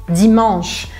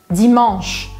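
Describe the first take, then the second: Both takes have the same delivery.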